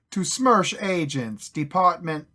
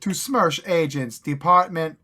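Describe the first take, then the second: First: Slow, louder fake Russian accent; hammed-up Russian reading. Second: Slow, loud mock Russian accent. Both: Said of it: "how to do a Russian accent".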